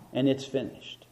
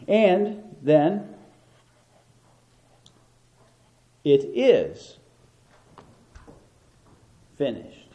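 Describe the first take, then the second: First: Said in the usual way. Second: "is" set apart by long pauses; pause, then land hard on "is"; stress on IS. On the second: Shown as a demonstration. Preacher showing the congregation the key word, stress on IS. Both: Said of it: "Emphasis on the middle word".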